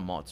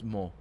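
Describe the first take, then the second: First: The word ends with an audible final consonant. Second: The word ends on the vowel, no consonant. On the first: The speaker calls it wrong. "It's not mots" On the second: The speaker calls it right. "It's mo"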